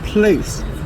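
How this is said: The word is given an English pronunciation. "the pronunciation place is the English pronunciation"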